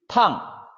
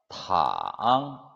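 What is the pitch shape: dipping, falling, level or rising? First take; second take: falling; dipping. First: The pitch falls sharply from high to low. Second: The pitch dips very low, then rises. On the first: It means hot or to scald. "사성" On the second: It means to lie down. "삼성"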